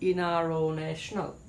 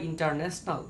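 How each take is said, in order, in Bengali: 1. t সাউন্ডটা পুরোপুরি বাদ যায়। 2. t সাউন্ডটা স্পষ্টভাবে উচ্চারিত হয়। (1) "বলতে হবে" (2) "ব্যবহার করা যাবে না"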